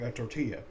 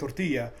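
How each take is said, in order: First: Tortilla is said with an English accent. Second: Tortilla is said with a Spanish accent.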